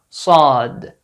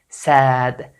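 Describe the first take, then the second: First: The s sound is heavy with a deep vowel. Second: The s sound is light with a bright vowel. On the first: The speaker calls it right. "it is very important to pronounce this letter correctly" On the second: The speaker calls it wrong. "Or a light sound like the letter sin"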